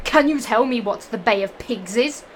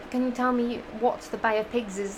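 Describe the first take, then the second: First: Teacher's question said louder. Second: Said in the usual way. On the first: Acted. The teacher quizzing the class, louder than usual. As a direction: put the question to the class loudly. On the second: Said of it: "reread the teacher's question".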